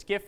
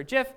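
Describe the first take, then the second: First: "gif" with a hard g, as in gift; hard-g pronunciation. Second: "gif" with a soft g, like j; soft-g pronunciation. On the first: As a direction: say "gif" as "ghiff". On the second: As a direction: say "gif" as "jiff". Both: Shown as a demonstration. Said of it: "how you pronounce gif".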